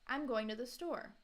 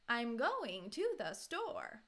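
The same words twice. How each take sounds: First: It is said with natural, lively intonation. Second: The emphasis falls in odd places. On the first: The speaker calls it right. "let me say it kind of naturally" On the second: The speaker calls it wrong. "put emphasis, stress, intonation in the wrong places"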